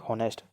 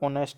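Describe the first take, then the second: First: The word starts with an audible h sound. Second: The word starts with a vowel, no h. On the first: The speaker calls it wrong. "ना कि हॉनेस्ट" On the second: The speaker calls it right. "इसमें ऑनेस्ट है ना कि हॉनेस्ट, तो एच silent है"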